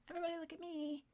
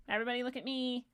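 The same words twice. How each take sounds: First: Much higher, much softer squeaky mock voice; mocking attention-seeker. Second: Said in the usual way. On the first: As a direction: whine it like a needy child begging for eyes. Second take, mocking attention seekers.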